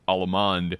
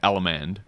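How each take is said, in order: First: It is said with the Baroque dance pronunciation. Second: It is said with the square-dance pronunciation.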